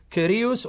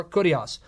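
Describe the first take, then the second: First: Kyrios with "ee", KEE-ree-oos; first vowel of Kyrios as "ee"; modern Greek pronunciation. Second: Kurios with "oo", KOO-dee-ahs; first vowel of Kurios as "oo"; Erasmian pronunciation. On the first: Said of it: "Some will pronounce it Kurios". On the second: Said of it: "the Rasman way". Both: Shown as a demonstration.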